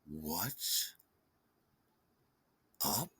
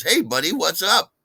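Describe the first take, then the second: First: Low, quiet, icy-slow retort; irritated deadpan. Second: Mock chirpy greeting, high and loud; peppy and chirpy. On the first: Retold or imitated. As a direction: leave a long pause between the two words. Irritated deadpan reply to chirpy greeting. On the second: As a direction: fake a perky hello, pitched up. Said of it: "he tries all peppy and chirpy".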